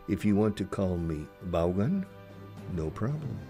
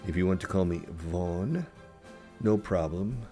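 No difference in how they are said.

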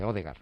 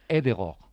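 First: The name is said with Spanish sounds. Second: The name is said with Norwegian sounds. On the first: This is the adapted form everyone understands. The speaker calls it wrong. "Odegar no se dice Odegar. Lo decimos así para entendernos todos" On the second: This is how people from the name's country say it. The speaker calls it right. "se dice algo así como"

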